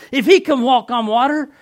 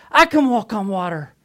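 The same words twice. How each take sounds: First: "he" punched high and loud, rising end; stress on HE. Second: "I" hit loud, then falling away; stress on I. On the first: Peter reasoning about Jesus on the waves, stressing "he". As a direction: set up the contrast by hitting "he". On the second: Peter convincing himself to step out, stressing "I". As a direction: answer the contrast by punching "I". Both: Acted. Contrast of he and I.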